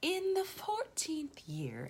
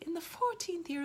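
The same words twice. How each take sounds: First: It is said in a put-on posh accent. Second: It is said in a plain reading accent.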